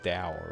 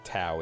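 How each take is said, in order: First: The word begins with a D sound. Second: The word begins with a T sound. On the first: The speaker calls it right. "It's Dao, right?" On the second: The speaker calls it wrong. "that's not actually pronounced like Tao"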